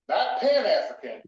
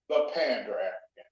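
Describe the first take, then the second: First: "Pan-African" with no d; pronounced Pan. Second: "Pander African" with a clear d in Pander; pronounced Pander. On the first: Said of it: "there's a difference". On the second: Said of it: "Not Pan-African, there's a difference". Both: Shown as a demonstration.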